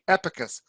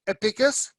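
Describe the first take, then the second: First: The stress falls on the first syllable. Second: The stress falls on a later syllable. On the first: The speaker calls it right. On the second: The speaker calls it wrong.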